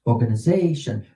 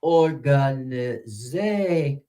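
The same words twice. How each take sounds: First: Quick, run-together "Organization"; said fast. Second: Very slow, drawn-out "Organization", syllable by syllable; teacher's slow-motion "Organization". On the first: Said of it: "Say it real fast". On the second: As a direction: stretch "Organization" out, lingering on "za". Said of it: "Slow it down". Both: Shown as a demonstration.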